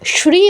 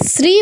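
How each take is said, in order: First: The word begins with an 'sh' sound. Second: The word begins with a plain 's' sound. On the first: The speaker calls it right. "আমরা শ্রী বলবো" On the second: The speaker calls it wrong. "এখানে শ্রী বলা যাবে না"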